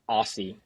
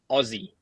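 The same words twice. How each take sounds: First: The middle consonant is a hissing s sound. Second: The middle consonant is a buzzing z sound. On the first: The speaker calls it wrong. "It's not Aussie. We don't put emphasis on S's" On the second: The speaker calls it right. "It's Aussie, as in as in [name]"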